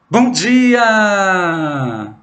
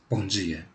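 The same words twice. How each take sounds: First: It is said in a very cheerful tone. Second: It is said in a sorrowful, heavy tone.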